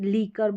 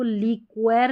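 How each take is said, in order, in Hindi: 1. बीच की आवाज़ सिर्फ़ 'k' है। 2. बीच की आवाज़ 'kw' है। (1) "लीकर बोलते हैं" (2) "अब इसको लीक्वेर नहीं बोलते"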